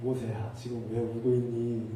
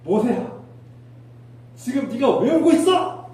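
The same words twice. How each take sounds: First: Hushed, low, slow coaxing; gentle. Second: High, loud, drawn-out reproach; angry scolding. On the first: God tenderly asking Moses why he cries, gentle. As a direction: comfort a crying child softly. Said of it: "부드럽게 말씀하셨을까요?". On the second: God scolding Moses for crying, angry shout. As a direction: tell them off sharply, rising to a yell. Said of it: "하나님께서 호통치고 있지 않을까요?". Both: Shown as a demonstration.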